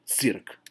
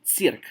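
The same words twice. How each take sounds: First: Цирк with hard ts and a dark y vowel. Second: Цирк with a clear ee after the first consonant; wrongly soft ts. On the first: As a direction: say "цирк" slowly as tsyrk, no ee. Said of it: "we'd say цирк". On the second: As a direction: say "цирк" softened, like tseerk. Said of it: "you don't say цирк". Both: Shown as a demonstration.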